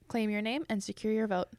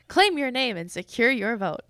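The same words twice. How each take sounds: First: It is said with plain, ordinary emphasis. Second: It is said with stronger, more forceful emphasis.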